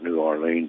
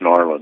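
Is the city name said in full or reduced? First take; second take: full; reduced. First: The name is said in full with all syllables. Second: The name is squeezed into two short syllables. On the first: The speaker calls it wrong. "you don't dare call it New Orleans" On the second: The speaker calls it right. "it's Narland"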